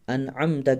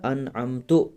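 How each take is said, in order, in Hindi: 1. यह शब्द 'a' स्वर पर खत्म होता है। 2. यह शब्द 'u' स्वर पर खत्म होता है। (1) "यहाँ ज़बर थी ता पर" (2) "हरकत को आपस में तब्दील करना"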